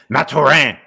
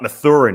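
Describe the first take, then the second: First: The name is said with French sounds. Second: The name is said with English sounds. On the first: The speaker calls it right. "it's Mathurin" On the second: The speaker calls it wrong. "it's not Mathurin"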